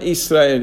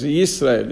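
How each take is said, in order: First: The name begins with a plain vowel sound. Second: The name begins with a 'y' sound. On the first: The speaker calls it wrong. "It's not Israel" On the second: The speaker calls it right. "it's Yisrael, it's Yud"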